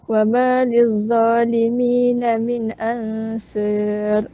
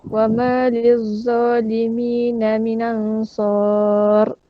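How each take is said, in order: First: The long a in ansar leans strongly toward e. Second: The long a in ansar stays fully open. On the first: "Abu Amru dia baca dengan imalah pada uh, ansar" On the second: "Hamzah dibaca nakal dan fathah"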